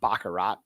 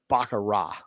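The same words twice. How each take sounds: First: The final T is clearly pronounced. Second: The final T is left silent. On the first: The speaker calls it wrong. "So it's not baccarat" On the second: The speaker calls it right. "You don't enunciate the T"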